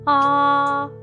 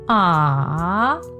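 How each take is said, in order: First: The pitch stays high and level. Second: The pitch dips down and then rises. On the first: "you must keep your voice high and flat" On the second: "your voice must go down"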